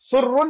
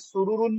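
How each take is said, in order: First: The two r sounds merge into one doubled r. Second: The two r sounds are separated by a vowel. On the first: The speaker calls it wrong. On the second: The speaker calls it right.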